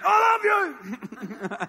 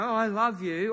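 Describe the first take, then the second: First: It is said loudly and irritably. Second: It is said gently and tenderly.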